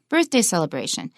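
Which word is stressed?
birthday. The stress falls on the word birthday. The speaker calls it right. "Here's our third compound with birthday as the first word"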